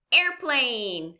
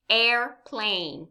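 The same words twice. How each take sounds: First: Said in the usual way. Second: AIRPLANE as air, pause, plane; two separate beats in AIRPLANE; syllable by syllable. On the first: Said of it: "What is it?". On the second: Shown as a demonstration. Teacher quizzes learners, AIRPLANE syllable by syllable. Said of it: "say this word syllable by syllable".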